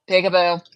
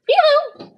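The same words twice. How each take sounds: First: Said in the usual way. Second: Very high, loud squawky peekaboo; piercing parrot call; parrot impression. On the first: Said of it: "I look up at him and it's like". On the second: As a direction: squeal it out like a pet parrot. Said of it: "Rick will sit there and be like".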